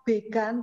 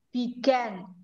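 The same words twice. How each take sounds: First: The second vowel is a plain open 'a'. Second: The second vowel is a wide 'ae' sound. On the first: The speaker calls it wrong. "ini bukan bacanya began" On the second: The speaker calls it right. "tapi dibaca began. A gandeng karo E, jadi mulutnya lebar"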